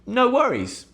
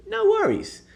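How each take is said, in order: First: High, airy reassurance; breezy no worries. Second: Very high, breezy reassurance; sing-song no worries. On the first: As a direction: wave it off lightly. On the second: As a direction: float it up airily. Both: Shown as a demonstration. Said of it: "a very British way to say".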